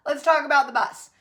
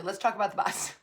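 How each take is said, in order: First: Louder, laughing through it; laughing restart. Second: Said in the usual way. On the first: Real, not acted. Speaker restarting her bus point with a laugh.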